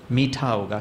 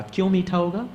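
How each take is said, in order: First: Said in the usual way. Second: "क्यों मीठा होगा?" pitched high, rising on "मीठा"; quizzing question. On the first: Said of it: "question back on sweet". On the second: Shown as a demonstration. Teacher quizzing the audience, high rising question. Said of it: "quizzing audience".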